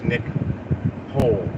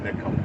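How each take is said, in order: First: The name ends with a 'hole' sound. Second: The name ends with a 'cole' sound. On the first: It is read the way it is spelled. "That's [name], [name], like like Van Hole" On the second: It is said the way the person says it. "but they pronounce it [name]"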